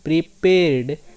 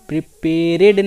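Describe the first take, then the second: First: The ending is a bare d sound. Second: The ending adds an extra ed syllable. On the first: The speaker calls it right. "आप ध्वनि सुन सकते हैं" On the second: The speaker calls it wrong. "प्रिपेरेड नहीं"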